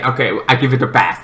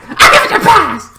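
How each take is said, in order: First: Said in the usual way. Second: Very high "I give it a pass"; hammed-up reluctant okay; mock grudging approval. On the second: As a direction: squeak out the verdict. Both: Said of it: "at the ending I'm like".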